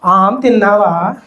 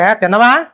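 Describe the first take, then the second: First: It is said tenderly and sweetly. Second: It is said curtly and offhandedly.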